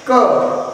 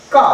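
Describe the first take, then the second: First: Said in the usual way. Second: का said with a clear drawn-out aa; long aa sound. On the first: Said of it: "ध्वनि है वो change हो जाती है". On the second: Shown as a demonstration. Teacher showing children how का sounds with the aa matra. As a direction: open the vowel wide on का. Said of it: "आ से हम उच्चारित करेंगे".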